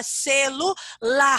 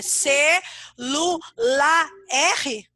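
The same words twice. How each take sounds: First: "celular" as ce-lu-LAR, long rasped R held on the last syllable; R joined on. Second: "celular" in separate syllables, final R named as a loose letter "erre", questioning; mock wrong syllable split of "celular" ending on a lone R. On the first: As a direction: sound out "celular" slowly with R attached to LA. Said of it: "Ou você fala celular?". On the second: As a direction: say ce, lu, la, then "erre" on its own. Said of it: "Quando você pronuncia a palavra celular". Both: Shown as a demonstration.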